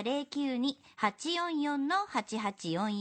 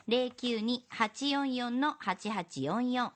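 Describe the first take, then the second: First: Slow, even number dictation; dictating. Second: Slow repeat of the number; dictating repeat. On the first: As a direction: read the number slowly for notes. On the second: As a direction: repeat the number slowly, digit by digit. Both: Acted. メモしてくださいね.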